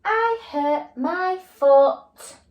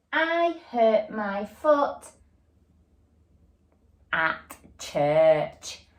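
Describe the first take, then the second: First: Very slow, higher, louder read-back; slow check reading. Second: Slow, word-by-word reading. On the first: Teacher rereading her sentence to check it, slow and emphatic. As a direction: read it back slowly, word by word. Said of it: "I'm gonna check my sentence". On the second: Teacher reading the sentence to pupils, slow and even. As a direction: read each word slowly as you point. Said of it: "the next part is where". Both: Shown as a demonstration.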